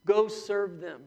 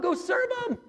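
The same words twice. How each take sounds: First: Said in the usual way. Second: High ringing shouted command, higher and louder; Jesus commanding. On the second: Acted. Jesus telling the church to serve, shouted high. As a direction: shout "serve" as an urgent order.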